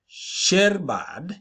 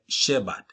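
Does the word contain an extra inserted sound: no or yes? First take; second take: yes; no. First: An extra sound is inserted into the word. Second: The word is said without an extra sound. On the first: This is a child's speech error. The speaker calls it wrong. "a child inserts a sound where it should not be" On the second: This is the standard form. The speaker calls it right. "instead of"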